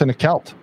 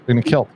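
First: "kilt" said as "kelt", rhyming with knelt. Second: Said in the usual way. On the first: Real, not acted. Co-host telling of a knighting, "kilt" pronounced "kelt". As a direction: give "kilt" the short e of "belt".

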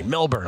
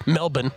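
First: Said in the usual way. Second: Put-on Melbourne in a light Australian accent, Mel-bun with no r; mock Australian accent. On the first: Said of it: "Or as Ron Flatter calls it". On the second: Host mimics a colleague's Australian way of saying Melbourne, Mel-bun. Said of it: "'cause he takes the Australian accent".

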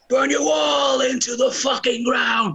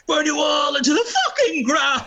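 First: Shouted lyric. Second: Voice cracking up an octave. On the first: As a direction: belt it out slowly like on stage. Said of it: "I just change it a bit. So it's like". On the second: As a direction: let the voice crack on the shout. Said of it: "But my voice cracked and it's like". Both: Retold or imitated.

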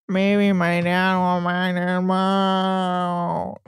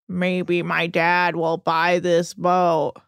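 First: Very slow, smeared drone; hammed-up mockery of a droning son; exaggerated monotone drawl. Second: Slow, low droning imitation; mocking a rich son's sluggish monotone; monotone drawl. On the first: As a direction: stretch it absurdly on one dead note. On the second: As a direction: drag every word out on one note. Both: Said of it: "in his weird monotone drawl".

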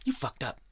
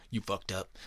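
First: Jab "You fucked up" at the brother; mock accusing. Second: Said in the usual way. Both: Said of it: "He was like".

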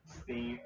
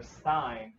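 First: "Steen" with a long ee, rhyming with green; STEEN pronunciation. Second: "Stein" rhyming with fine; STINE pronunciation. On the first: Recalling the question put to grandma, "Steen" with long ee. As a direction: draw out "Steen" as one option, slowly. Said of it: "asking my grandma after that". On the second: Recalling the question put to grandma, "Stein" rhyming with fine. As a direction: say "Stein" as in beer stein, slowly. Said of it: "like the beer stein". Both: Shown as a demonstration.

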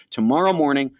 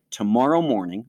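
First: Tomorrow morning pitched higher and louder, "tomorrow" leaned on; emphatic repeat. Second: Said in the usual way. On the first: Retold or imitated. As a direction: hit "tomorrow morning" as the decision.

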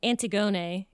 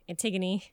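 First: Antigone said as an-tee-GO-nay; "Antigone" with every vowel sounded out; every syllable pronounced. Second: Said in the usual way. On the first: Shown as a demonstration. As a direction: stress the GO in Antigone, end on -nay. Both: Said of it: "every little syllable".

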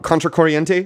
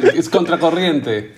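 First: Contracorriente? said with anglicised vowels and a questioning rise; trying out the Spanish title Contracorriente? in a rising American accent; unsure English-accented Contracorriente?; attempted Spanish. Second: Contracorriente. with a rolled Spanish r and pure vowels, falling and confident; correcting with Contracorriente. in native Spanish, flapped r and final e; Contracorriente. said the Peruvian Spanish way. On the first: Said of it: "Is that a bad accent?". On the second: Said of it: "It has an accent". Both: Shown as a demonstration.

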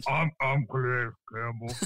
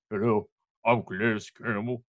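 First: Softer, a hint deeper put-on voice; deeper Calais impression. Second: Lightly deepened mock guest voice; a terrible put-on deep voice; bad Calais impression. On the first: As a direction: push the mock deep voice further. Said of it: "Can I get any deeper?". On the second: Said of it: "It's a terrible impression".

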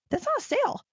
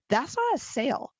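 First: "not" pitched much higher and punched in "That's not a sale"; stress on not. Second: Said in the usual way. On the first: Real, not acted. Coach scolding would-be salespeople, stressing "not" sharply high. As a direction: hit "not" hard and high, disbelieving. Repeats point for emphasis.

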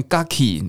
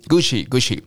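First: "Gucci" misread with hard k sounds, "Ga-ki"; odd mispronunciation. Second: "Gucci" with a ch sound, Goo-chee; correct Italian pronunciation. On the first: Teacher mocking a strange reading, "Gucci" mispronounced as Gah-kee. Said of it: "怎么会念这么奇怪的声音". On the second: Teacher correcting the odd reading, "Gucci" pronounced properly as Goo-chee. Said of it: "就可以念出起起起这个声音". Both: Shown as a demonstration.

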